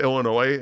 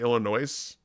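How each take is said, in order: First: The final S is silent. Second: The final S is pronounced. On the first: The speaker calls it right. "It's like a it's like a silent S" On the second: The speaker calls it wrong. "people say Illinois just because they don't know"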